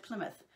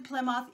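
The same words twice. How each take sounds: First: Plymouth as "PLIM-uth"; Plymouth, like the Rock, "PLIM-uth"; usual pronunciation. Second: Plymouth as "ply-mouth", spelled-out sound; questioned pronunciation. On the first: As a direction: say Plymouth with short i and weak ending. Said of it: "We say Plymouth". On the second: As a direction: say Plymouth with a full "mouth" at the end. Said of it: "Or is it Plymouth?". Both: Shown as a demonstration.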